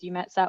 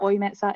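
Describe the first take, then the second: First: The name is said with English pronunciation. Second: The name is said with German pronunciation. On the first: "we refer to it generally as EUMETSAT" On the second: "if you're in Germany and you pronounce it that way"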